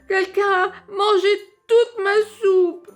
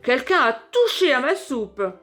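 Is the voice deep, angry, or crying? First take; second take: crying; deep. First: It is said in a small crying voice. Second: It is said in a big deep voice.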